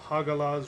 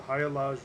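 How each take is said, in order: First: The g in the middle is clearly pronounced. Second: The g in the middle is left silent.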